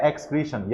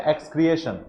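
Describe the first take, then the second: First: एक्सक्रीशन said as ek-skree-shan, long "ee" and no extra "e"; the right reading एक्सक्रीशन, three syllables ending in "shan"; correct pronunciation. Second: एक्सक्रिएशन said as ek-skri-e-shan, with an extra "e" before "shan"; the mistaken reading एक्सक्रिएशन, four syllables with a separate "e"; wrong pronunciation. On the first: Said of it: "उसको पढ़ना है एक्सक्रीशन". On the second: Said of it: "तो एक्सक्रिएशन नहीं पढ़ना है उसको". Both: Shown as a demonstration.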